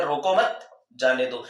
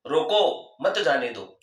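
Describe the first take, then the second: First: रोको मत together, long break, then जाने दो; slow demo with जाने दो set apart; pause after मत. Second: रोको, a clear break, then मत जाने दो; slow demo with रोको standing alone; pause after रोको. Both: Shown as a demonstration. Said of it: "सुनने वाला अलग अलग अर्थ निकाले".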